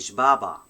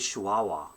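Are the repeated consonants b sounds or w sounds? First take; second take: b sounds; w sounds. First: The repeated consonants are hard b sounds. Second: The repeated consonants are soft w sounds. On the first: The speaker calls it wrong. "it's gonna sounds b, so it's gonna be shbaba. No one says shbaba in the Eastern dialect" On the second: The speaker calls it right. "We say Chihuahua"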